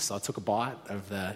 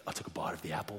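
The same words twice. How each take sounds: First: Said in the usual way. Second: Near-whispered, dramatic confession; hushed retake. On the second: Real, not acted. Storyteller biting the forbidden apple, hushed and near-whispered. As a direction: drop right down to a hush. Restarts the line for dramatic effect.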